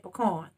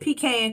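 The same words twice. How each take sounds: First: Pecan is said the speaker's own way. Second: Pecan is said the Georgia way.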